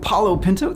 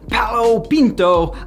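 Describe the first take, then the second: First: The name is said with an American pronunciation. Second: The name is said with a non-American pronunciation. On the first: "that's the American pronunciation" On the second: "Maybe it's Palo Pinto"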